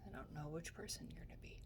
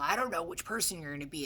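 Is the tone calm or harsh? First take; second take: calm; harsh. First: It is said in a calm, gentle tone. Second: It is said in a harsh, judging tone. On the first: The concern comes from care, not judgment. The speaker calls it right. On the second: The speaker is being condemned as a person. The speaker calls it wrong.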